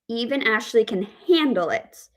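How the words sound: The stress is on the word handle. She copes without breaking down, though she dislikes it. "we have the word stress on handle"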